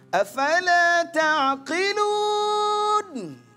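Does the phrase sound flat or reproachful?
reproachful. It is said in a reproachful, challenging way. The speaker calls it right. "nah itu lebih cocok. Artinya kamu mikir nggak sih?"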